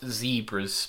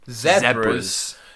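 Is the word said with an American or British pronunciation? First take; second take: American; British. First: The word is said in an American pronunciation. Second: The word is said in a British pronunciation. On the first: The speaker calls it wrong. "Not zebras" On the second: The speaker calls it right. "because we say Z"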